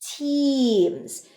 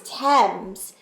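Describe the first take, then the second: First: The vowel is a long 'ee' sound. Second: The vowel is a short 'e' sound. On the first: The speaker calls it right. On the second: The speaker calls it wrong.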